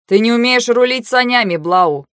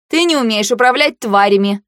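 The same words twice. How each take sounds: First: Biting jab, higher then dropping on the name; caustic. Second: Pointed comeback; retort. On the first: Тир mocking Блау's sled steering, caustic. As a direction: needle her with it. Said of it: "язвительно произнёс Тир". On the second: Heroine parrying Тир's jab, retorting. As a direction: throw the accusation straight back. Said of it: "парировала я". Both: A narrator's reading.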